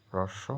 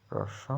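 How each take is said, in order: The two takes are said the same way.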